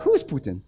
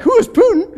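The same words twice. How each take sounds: First: Flat, calm, unimpressed question; calm swagger. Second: Much higher, louder, laughing in shock; can't believe what he just heard; laughing disbelief. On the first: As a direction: say it as if the name is nobody. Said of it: "like, swagger". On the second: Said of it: "I was like". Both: Retold or imitated.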